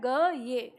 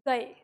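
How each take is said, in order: First: It is said with a y glide between syllables. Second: It is said with the vowels joined, no y glide. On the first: This is how the written form would be read. "उच्चारण इसका क्या है" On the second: This is how people actually say it. "लेकिन जब हम उच्चारण करते हैं तो क्या बोलते हैं"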